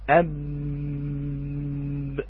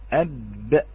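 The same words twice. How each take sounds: First: The final b is held long with sustained voicing. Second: The final b is released quickly by parting lips. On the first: "لو مكثنا على الباء أكثر" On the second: "بفك الاتصاق بين الشفتين"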